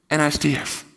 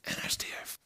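First: Louder firm statement; spoken firmly. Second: Soft unvoiced whisper. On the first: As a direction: state it with weight. Repeated line, loud then whispered. (stevig uitgesproken) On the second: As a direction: breathe it out quietly. Repeated line whispered. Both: Real, not acted.

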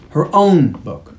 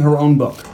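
First: Slow repeat, OWN held long in disbelief; stress on OWN. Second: Said in the usual way. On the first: Shown as a demonstration. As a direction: OWN drawn out slowly. Repeats it to mark absurdity.

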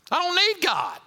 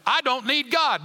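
First: Higher, brash mock boast; mock proud boast. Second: Said in the usual way. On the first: Preacher mimics a prideful man to congregation, brash boast. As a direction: play the proud man scoffing at God. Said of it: "You got a lot of pride". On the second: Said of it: "you wouldn't stand up and say".

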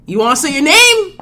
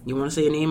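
First: Loud high hype call; pumped-up hyped repeat; louder hype. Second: Said in the usual way. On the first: Real, not acted. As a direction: shout it to get him going.

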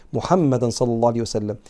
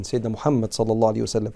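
First: محمدا said as muhammadan with the full nun ending; textbook case ending. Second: Said in the usual way. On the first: Shown as a demonstration. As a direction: stress محمدا as muhammadan, the way the text reads.

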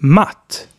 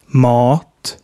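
First: Matt with a short, open front 'a'. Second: Mat as 'maat', with a long dark vowel. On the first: Teacher giving more examples, short A in matt. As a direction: cut the vowel in matt short. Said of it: "different versions of A". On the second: Teacher giving more examples, long A in mat. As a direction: hold the back 'ah' in mat long. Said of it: "Here are some more examples". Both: Shown as a demonstration.

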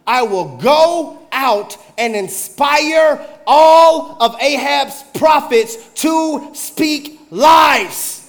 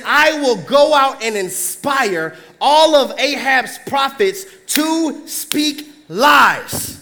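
First: Very slow, loud, rising to a shout on lies; booming slow spirit. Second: Very slow, deliberate; slow emphatic. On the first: Lying spirit proclaiming its plan before the Lord. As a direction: boom it out to wake the room. Spirit voiced, preacher wakes listeners. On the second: Preacher repeating the spirit's line slowly for emphasis. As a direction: weigh each word. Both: Acted.

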